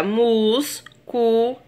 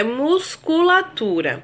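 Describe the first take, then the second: First: "musculatura" split as mus, cu, la, tu, ra; syllable by syllable. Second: Said in the usual way. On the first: Shown as a demonstration. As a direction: pause after each syllable of "musculatura". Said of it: "Na separação silábica fica". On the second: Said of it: "Na separação silábica fica musculatura".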